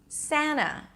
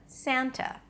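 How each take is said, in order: First: The T after the N is skipped. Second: The T after the N is clearly pronounced. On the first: "like Santa Claus" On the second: "instead of Santa"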